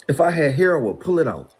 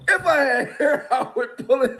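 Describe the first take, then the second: First: Said in the usual way. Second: If I had hair said again with a laugh breaking in; laughing through it. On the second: Shown as a demonstration. Repeating his line to the interviewer while laughing.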